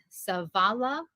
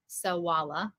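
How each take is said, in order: First: Savala with a v sound; standard pronunciation. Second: Sawala with a w sound; Connacht pronunciation. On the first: Learner giving the usual form, Savala with a v. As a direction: say Savala with v, not w. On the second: Learner giving the Connacht form, Sawala with a w. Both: Shown as a demonstration. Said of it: "you're in Connacht".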